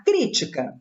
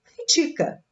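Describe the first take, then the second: First: "crítica" stressed on the first syllable, CRÍ-ti-ca; noun stress. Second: "critica" stressed on "ti", cri-TI-ca; verb stress. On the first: Teacher reading the noun: "crítica" stressed on "crí". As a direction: put the weight on "crí" in "crítica". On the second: Teacher reading the verb: "critica" stressed on "ti". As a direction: put the weight on "ti" in "critica". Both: Shown as a demonstration. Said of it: "Se eu retirar o acento".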